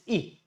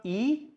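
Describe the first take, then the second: First: E as a brief "ih"; E as the small i vowel; short E sound. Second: E drawn as long "ee"; E as the long vowel; long E sound. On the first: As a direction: cut E short. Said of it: "it's E". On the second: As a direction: stretch E into "eee". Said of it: "It's not E". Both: Shown as a demonstration.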